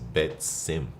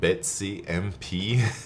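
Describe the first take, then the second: First: It is said as two words, Bet and Simp. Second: It is said as Betsy followed by letters M, P. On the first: The speaker calls it right. "I think his name is Bet Simp" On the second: The speaker calls it wrong. "I've been pronouncing it Betsy M P"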